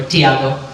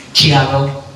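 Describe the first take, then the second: First: "Tiago" begun with a clear t sound; variant pronunciation. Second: "Tiago" begun with a ch sound; variant pronunciation. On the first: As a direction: say "Tiago" as tee-AH-go. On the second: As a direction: say "Tiago" as chee-AH-go. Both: Shown as a demonstration.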